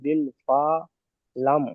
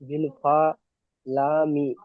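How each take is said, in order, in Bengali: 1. শেষ শব্দটি ব্যঞ্জনে শেষ হয়। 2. শেষ শব্দটি স্বরে শেষ হয়।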